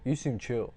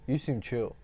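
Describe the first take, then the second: First: It is said flatly, in a wooden way. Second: It is said flatly, in a wooden way.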